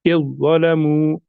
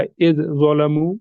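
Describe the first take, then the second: First: "इज़्ज़लमू" slow, first letter joined to a heavy doubled consonant; drawn-out "इज़्ज़लमू" in one joined flow; merged pronunciation. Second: "इज़ ज़लमू" with the first consonant sounded apart; wrong pronunciation. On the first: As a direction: recite "इज़्ज़लमू" slowly as "iz-zalamu", no separate dhal. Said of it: "सीधे हम इसको इसके साथ मिलाकर पढ़ेंगे". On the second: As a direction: say "इज़ ज़लमू" as two unmerged pieces. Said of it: "ऐसे भी नहीं पढ़ना है". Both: Shown as a demonstration.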